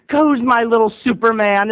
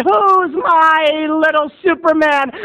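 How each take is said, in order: First: Lightly voiced proud mom; doting mom. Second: Higher, slow, louder coaxing mom; hammed-up proud mother; doting mom, drawn out. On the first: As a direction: coo it to a little boy. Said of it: "And she said". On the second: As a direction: stretch it out to get the boy cheering. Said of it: "And Mom said".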